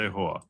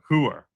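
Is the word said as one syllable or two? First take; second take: one; two. First: The word is said as one syllable. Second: The word is said as two syllables. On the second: "that's not the New York way of saying it"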